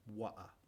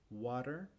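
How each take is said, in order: First: Softer British "water", no final R; R-less British "wa'a"; British pronunciation. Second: American "Water" with the final R sounded; American pronunciation. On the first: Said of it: "después con la pronunciación británica". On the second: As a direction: say "Water" the Yankee way, rising. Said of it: "con la pronunciación yankee". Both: Shown as a demonstration.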